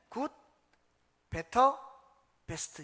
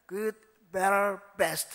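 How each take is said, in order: First: It is said with plain Korean-style pronunciation. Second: It is said with a rolled American-style pronunciation.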